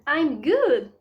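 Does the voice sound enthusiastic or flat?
enthusiastic. It is said with emphatic, lively enthusiasm. The speaker sounds convincingly fine. The speaker calls it right. "nós possamos dar uma ênfase"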